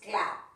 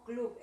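First: It is pronounced the English way. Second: It is pronounced the Spanish way. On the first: "but in English is club" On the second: "nosotros decimos club en castellano"

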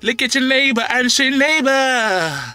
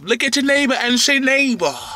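First: It is said in a dramatic preaching voice. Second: It is said in an ordinary speaking voice.

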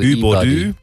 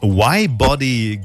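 First: The name starts with an E sound. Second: The name starts with the letter name Y. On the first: The speaker calls it right. "E-Body, genau" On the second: The speaker calls it wrong. "Ich sage ich doch Y"

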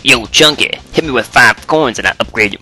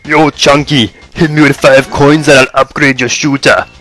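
First: It is said in an odd, non-Austrian voice. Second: It is said in an Austrian weightlifter voice.

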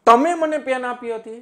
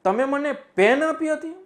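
First: The stress falls on તમે. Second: The stress falls on પેન. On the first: It was the listener rather than someone else. "તમે ઉપર હું ભાર બતાવું" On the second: It was a pen rather than a pencil. "હવે પેન ઉપર ભાર આપી દઉં"

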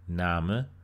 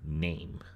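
First: The vowel sounds like the German vowel. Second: The vowel sounds like the modern English vowel. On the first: This is how the word sounded before the change. "the old pronunciation is exactly the same as we would have in German now" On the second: This is how the word sounded after the change.

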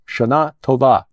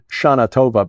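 First: It is said with a Hebrew pronunciation. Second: It is said with an American English pronunciation. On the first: The speaker calls it right. "No, it's Shana Tova" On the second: The speaker calls it wrong. "we Americans, English speakers, would probably try to pronounce it Shana Tova"

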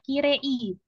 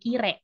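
First: The final i sound is fully pronounced. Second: The final i sound is dropped. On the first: The speaker calls it wrong. "pelafalan atau pronunciation dari kirei itu dia tidak kirei" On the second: The speaker calls it right. "huruf I terakhir pada kirei itu lesap. Hilang sehingga pelafalannya menjadi kire"

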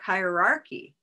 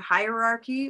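First: The stressed vowel is the vowel in 'olive sock'. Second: The stressed vowel is the vowel in 'white tie'. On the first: "olive sock hierarchy"

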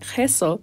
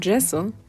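First: It is pronounced the Spanish way. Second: It is pronounced the English way. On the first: The speaker calls it right. "in Spanish, we have to say gesso" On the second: The speaker calls it wrong. "instead of gesso"

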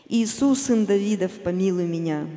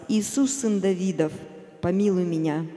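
Both takes have the same delivery.

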